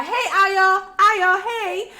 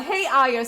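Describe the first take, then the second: First: High, loud imitation of a friend's greeting; coworker calling out. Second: Lightly acted reply, close to usual voice; answering a greeting. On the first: Coworker hailing her by nickname, high excited call. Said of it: "she would call". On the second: Replying to the coworker's greeting, lightly acted answer. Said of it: "And so I would answer".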